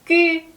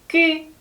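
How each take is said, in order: No difference in how they are said.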